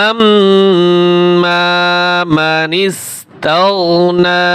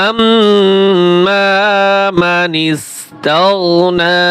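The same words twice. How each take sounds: No difference in how they are said.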